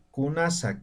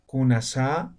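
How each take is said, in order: First: Kunasa with the ending falling, like a statement; no question intonation. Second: Kunasa rising on the final SA; wrongly intoned question. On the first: Teacher shows Aymara questions are not intoned, falling end. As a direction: ask Kunasa without lifting the last syllable. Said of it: "Básicamente no se entona". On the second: Teacher shows the intonation Aymara avoids, rising question tone. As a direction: lift the end of kunasa as in a Spanish question. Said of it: "no hacemos la entonación". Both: Shown as a demonstration.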